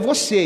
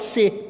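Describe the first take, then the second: First: The word has two full syllables. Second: The word is cut to one syllable. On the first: This is the standard current form. "Agora é você" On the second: Some speakers use a shortened form. "outros falam se"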